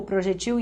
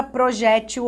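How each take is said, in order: First: "projetil" stressed on TIL; tônica na última. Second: "projétil" stressed on JÉ; tônica na penúltima. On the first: ("projetil" com tônica no TIL) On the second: ("projétil" com tônica no JÉ) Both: Shown as a demonstration. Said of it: "a banca pergunta assim".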